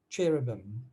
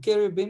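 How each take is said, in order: First: The word is pronounced in its familiar English form. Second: The word is pronounced in its original Hebrew form.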